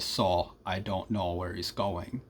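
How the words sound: The O vowel is long and steady. "contrast that to um, Muskota, and we say"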